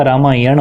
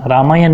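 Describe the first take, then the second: First: "रामायण" with a retroflex final n; correct pronunciation. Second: "रामायण" said with a plain final n; wrong pronunciation. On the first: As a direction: curl the last sound of "रामायण". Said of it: "रामायण होगा". ("रामायण" के अंत में ण साफ़) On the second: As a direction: end "रामायण" on a dental n. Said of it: "रामायण नहीं होगा". ("रामायण" को रामायन बोलना) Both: Shown as a demonstration.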